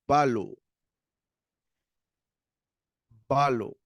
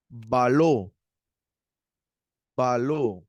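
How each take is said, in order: First: "Balo" stressed on the A; crisp model "Balo", accent up front; stress on first vowel. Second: "Baló" with a long, stressed final O; teacher's emphatic "Baló", end-stressed; stress on final vowel. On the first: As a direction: punch the first syllable of "Balo", short final O. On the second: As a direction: lean on the second syllable of "Baló". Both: Shown as a demonstration. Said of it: "Tenemos acento en la primera vocal".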